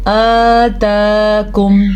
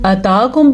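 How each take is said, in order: First: आताकुम slow with both aa held long; slow correct आताकुम; correct reading. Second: अताकुम with a short first a; quick mistaken अताकुम; wrong reading. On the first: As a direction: stretch both vowels in आताकुम. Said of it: "किस तरीके से?". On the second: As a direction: clip the first vowel of अताकुम. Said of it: "बाज़ लोग क्या करते हैं". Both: Shown as a demonstration.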